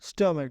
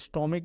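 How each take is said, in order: First: It ends with an 'uck' sound. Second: It ends with an 'ick' sound. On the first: The speaker calls it right. "स्टमक है" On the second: The speaker calls it wrong. "ये स्टोमिक नहीं है"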